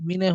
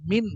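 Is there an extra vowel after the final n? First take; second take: yes; no. First: An extra vowel follows the final n. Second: The word ends cleanly on the n. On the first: The speaker calls it wrong. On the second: The speaker calls it right.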